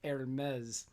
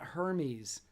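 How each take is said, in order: First: The name is said unlike its written form. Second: The name is said just as written. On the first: The speaker calls it right. "It's pronounced Hermes" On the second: The speaker calls it wrong. "It's not Hermes like it's spelled"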